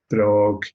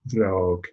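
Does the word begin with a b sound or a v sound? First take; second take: b sound; v sound. First: The word begins with a b sound. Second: The word begins with a v sound. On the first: It means a shoe. "a shoe" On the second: It means the shoe. "the B H is the B in brog being lenited"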